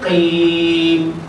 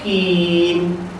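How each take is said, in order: First: The first sound is a deep throaty q. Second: The first sound is a plain k. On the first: The speaker calls it right. "Patutnya qim" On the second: The speaker calls it wrong. "Yang salah terus kim"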